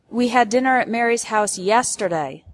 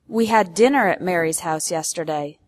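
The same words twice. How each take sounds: First: The word yesterday carries the main stress. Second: The word dinner carries the main stress. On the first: It corrects the time, not last week. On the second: It corrects the meal, not lunch.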